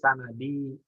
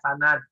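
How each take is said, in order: First: The word ends with a short final vowel. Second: The word ends without a final vowel. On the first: The speaker calls it right. "tapi sanadi gitu" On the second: The speaker calls it wrong. "nggak boleh bacanya sanad"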